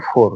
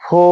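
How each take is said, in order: First: "ফোর" with the final r sounded; "ফোর" the old way, r kept; R pronounced. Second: "ফো" ending on the open o, no r; silent final R. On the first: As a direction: finish "ফোর" on an audible r. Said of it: "এর আগে আমরা উচ্চারণ করেছি". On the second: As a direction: drop the r and end "ফো" on the vowel. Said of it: "আসলে এর উচ্চারণটা". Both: Shown as a demonstration.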